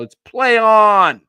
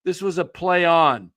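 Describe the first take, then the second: First: "play" stressed loud and slow; emphatic call. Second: Said in the usual way. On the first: Real, not acted. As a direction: hammer "play" like a ref ruling.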